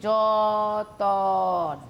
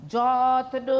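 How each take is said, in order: First: যতন drawn out very slowly, syllable by syllable, জ-ত-ন; split apart slowly. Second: যত্ন said as one tight cluster, t and n joined; whole word. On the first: Teacher to students, drawing যতন out very slowly. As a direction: stretch যতন out slowly to show the vowel inserted. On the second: Teacher to students, saying যত্ন as one cluster. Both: Shown as a demonstration. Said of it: "কথাটাকে ভাগ করছি".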